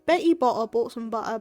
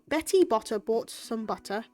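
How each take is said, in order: First: The T sounds are dropped. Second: Every T is clearly pronounced. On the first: It sounds much funnier. "saying it without the T's" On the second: It sounds more formal and easier to understand. "saying it like that and pronunciating the T's and enunciating"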